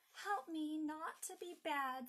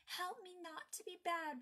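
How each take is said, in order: First: Slow, deliberate line of prayer; feed the line slowly for repeating; Donald leading prayer. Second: Higher, lightly voiced small girl; little girl repeating prayer. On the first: Donald leads his sister in prayer, slow and earnest. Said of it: "said Donald". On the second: Margaret repeats her brother's prayer, higher childlike voice. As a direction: echo the prayer like a younger child. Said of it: "repeated Margaret". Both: A narrator's reading.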